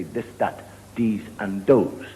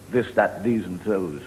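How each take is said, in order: First: "this, that, these and those" with hard D or T for each TH; Irish TH as D. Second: Said in the usual way. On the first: Shown as a demonstration. Comic showing Irish speech, TH turned to D in "this, that, these and those". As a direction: say "this, that, these and those" as dis, dat, dese and dose. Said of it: "the Irish, we have trouble with, uh, the T and the H". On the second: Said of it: "We never say".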